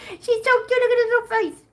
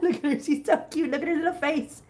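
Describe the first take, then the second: First: Very high cutesy squeal; tiny, squeaky adoring voice. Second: Higher cutesy cooing; sweet pet-adoring voice. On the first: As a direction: gush over a kitten way up high. Repeats the coo much higher. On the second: Cooing over a kitten's face. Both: Real, not acted.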